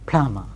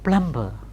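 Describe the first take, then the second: First: The b after the m is silent. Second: The b after the m is pronounced. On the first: The speaker calls it right. "Final b after m will be normally silent" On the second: The speaker calls it wrong. "not plumber"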